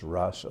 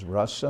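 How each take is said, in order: First: The first vowel is long. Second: The first vowel is short. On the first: It means the dance of Krishna. "like rasa lila" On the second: It means taste or relish. "Rasa is a short A, the beginning"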